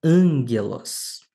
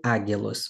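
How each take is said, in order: First: "ângelos" with a nasal n before a hard g; slow, stressed first syllable in "ângelos", said ANG-ghe-los; nasalized gamma. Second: "águilos" with a plain g and no nasal; the wrong reading "águilos", gamma left as g; unaltered gamma. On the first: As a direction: model reading of "ângelos" with the gamma turned nasal. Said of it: "como é que nós vamos ler essa palavra". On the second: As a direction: say "águilos" letter by letter, without an n sound. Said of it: "Não vai ser águilos, mas". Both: Shown as a demonstration.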